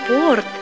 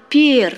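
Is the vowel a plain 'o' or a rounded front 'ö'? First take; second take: o; ö. First: The vowel is a plain back o. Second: The vowel is a rounded front ö. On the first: The speaker calls it wrong. "не порт" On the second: The speaker calls it right. "а перт. В этом слове встречается другой красивый марийский звук"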